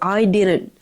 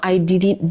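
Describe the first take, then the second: First: The middle consonant is a quick R-like flap. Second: The middle consonant is a clear D sound. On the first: The speaker calls it right. "It's an R. Okay, instead of a T. So I didn't" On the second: The speaker calls it wrong. "it's not I didn't didn't or something like that"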